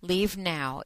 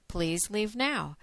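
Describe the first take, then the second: First: Said in the usual way. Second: Please leave now, drawn out and final; slow it right down on leave now; slow firm warning. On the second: Shown as a demonstration. Warning off listeners who might be offended, slow and firm.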